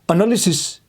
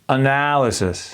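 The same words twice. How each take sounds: First: The consonants are hard and clearly articulated. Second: The consonants are soft and barely audible. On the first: The speaker calls it wrong. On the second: The speaker calls it right. "Our muscles are very relaxed"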